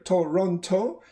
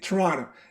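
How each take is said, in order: First: Every vowel is pronounced fully and clearly. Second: The unstressed vowels are reduced to schwa. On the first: The speaker calls it wrong. "nobody's going to say that" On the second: The speaker calls it right. "They're going to say Toronto"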